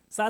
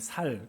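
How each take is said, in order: First: The word starts with a tense s sound. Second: The word starts with a plain s sound. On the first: The speaker calls it right. "쌀 해봐!" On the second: The speaker calls it wrong. "경상도 사람도 꼭 쌀 할 때 쌀 하지 못하고 살 그러잖아요"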